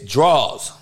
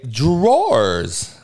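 First: The word is said reduced as one syllable. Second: The word is said fully with two syllables. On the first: This is the everyday way the speaker's community says it. "We don't got time to pronounce every fucking enunciate, every goddamn fucking vowel. It's draws"

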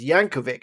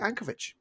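First: The name ends with a hard k sound. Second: The name ends with a ch sound. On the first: The speaker calls it right. "they pronounce his name as [name]" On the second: The speaker calls it wrong. "that V-I-C sound in Europe is always that C-H sound"

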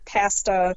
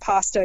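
First: The A is said the Canadian way. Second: The A is said the usual non-Canadian way. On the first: "you say pasta" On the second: "Instead of saying pasta"

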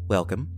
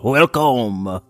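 First: It is said in a stern parent voice. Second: It is said in a French chef voice.

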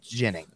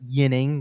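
First: The name starts with a soft zh-like sound. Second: The name starts without a soft zh-like sound. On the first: This is how the player himself says the name. The speaker calls it right. "But it is a soft sound ... he has said it's Ginning" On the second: This is how the name would be said in Swedish. The speaker calls it wrong. "it is not Ginning, which is what Ginning is more of what the Swedish pronunciation should be"

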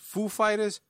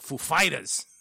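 First: The stress falls on the word Foo. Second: The stress falls on the word Fighters. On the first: "is the accent on the Foo" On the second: "or the Fighters?"

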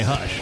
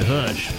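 First: It is said in a plain, neutral accent. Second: It is said with a Southern drawl. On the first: The speaker calls it wrong. "I didn't say hush" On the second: The speaker calls it right. "I said hush"

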